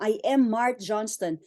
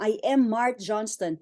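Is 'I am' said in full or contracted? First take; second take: full; full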